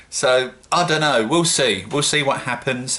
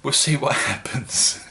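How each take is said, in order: First: A bit too loud and higher; half-shouting without meaning to; raised voice. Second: Not shouting, higher and chuckling; amused, toned-down repeat. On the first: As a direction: get carried away, voice raised. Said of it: "I don't know why I'm shouting". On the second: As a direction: say it with a laugh breaking in. Mock repeat after noticing own shouting. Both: Real, not acted.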